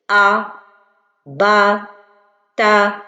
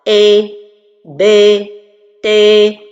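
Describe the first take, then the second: First: The vowel is heavy and emphatic, darkened. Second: The vowel is fronted, leaning toward 'e'. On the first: "L'erreur avec le tafrim, c'est d'emphatiser" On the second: "Je me suis penché vers al-kasra"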